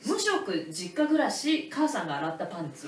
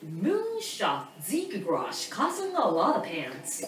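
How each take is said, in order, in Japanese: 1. 普通の日本語の発音で言われています。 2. 英語っぽい発音で言われています。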